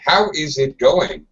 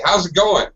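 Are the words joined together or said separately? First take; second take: separately; joined. First: Every word is said fully and separately. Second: The words are reduced and joined together. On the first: The speaker calls it wrong. "I think they turned into a robot" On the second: The speaker calls it right. "you better say"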